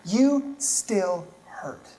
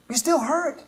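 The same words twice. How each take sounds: First: Very slow and soft, each word weighed; slow tender emphasis. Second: Higher, with the word still rising; lifted empathetic repeat. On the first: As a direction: let the words sink in gently. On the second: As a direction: repeat it lifting still upward. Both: Shown as a demonstration.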